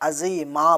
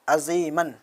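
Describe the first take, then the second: First: The word ends with a long a vowel. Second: The word ends with a nasal n sound. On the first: The reader stops at this word. "अगर हम वहाँ पे रुकेंगे तो वहाँ पे हम अज़ीमा पढ़ देंगे" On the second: The reading continues without stopping. "जैसे कुरान शरीफ के अंदर आता है अज़ीमन"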